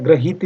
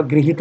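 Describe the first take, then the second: First: ग्रहित said "gra-hit", with a after gr; faulty "grahit" held up for correction; wrong first syllable. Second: गृहित said "gri-hit", with i after gr; correct first syllable. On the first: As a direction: say ग्रहित with a full ra. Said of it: "ग्रहित नहीं होगा". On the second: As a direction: say गृहित with ri, not ra. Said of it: "गृहित होगा". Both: Shown as a demonstration.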